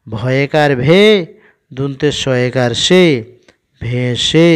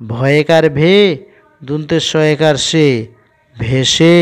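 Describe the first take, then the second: No difference in how they are said.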